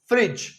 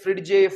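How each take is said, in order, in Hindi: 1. इसका अंत सादा 'j' ध्वनि से होता है। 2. इसका अंत 'j' ध्वनि और एक स्वर से होता है। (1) "ये है फ्रिज" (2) "इसमें हम डी प्रोनाउंस नहीं करते। आपने इसे फ्रिडजे फ्रिडगे ऐसा कुछ नहीं बोलना है"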